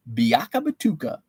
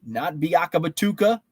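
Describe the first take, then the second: First: Biaka Batuka savored syllable by syllable; relishing the name. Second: Said in the usual way. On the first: Shown as a demonstration. Host to chat, enjoying the name, relishing it. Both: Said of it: "Ooh, I just like saying that".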